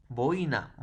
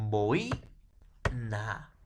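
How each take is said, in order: First: Said in the usual way. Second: "boi, na" split by a long pause; syllable by syllable. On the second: Shown as a demonstration. Teacher divides boina for students, syllable by syllable. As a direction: say "boi", hold off, then "na". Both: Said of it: "¿Cómo sería?".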